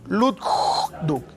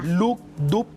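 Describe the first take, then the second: First: A two-beat sound with a dragging whoosh added. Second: A clean two-beat sound with no added noise. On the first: The heart has a murmur. "ese sonido de arrastre" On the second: The heart is beating normally. "el ritmo normal del corazón"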